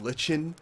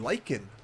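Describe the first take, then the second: First: The word sounds like 'lichen'. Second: The word sounds like 'Lycan'. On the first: The speaker calls it wrong. "I was calling it Lichen in our last episode" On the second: The speaker calls it right. "I'm pronouncing the word properly this time"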